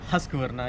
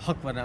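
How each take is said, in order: First: The first syllable is husk with a short vowel. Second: The first syllable is huck without the s sound. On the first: "ना कि हस्क वरना" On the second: "या हक वरना"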